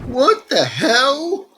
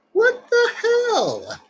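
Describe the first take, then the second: First: High, slow stunned cry; shocked disbelief. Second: Very high, slow falling squeak; squeaky disbelief. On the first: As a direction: let the shock stretch the words out. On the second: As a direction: stretch it out in a squeaky falsetto. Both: Real, not acted. Shocked by creepy smile.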